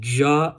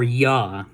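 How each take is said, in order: First: It begins with an English J sound. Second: It begins with a Y sound. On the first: "it makes its its normal sound" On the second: "it makes that Y sound"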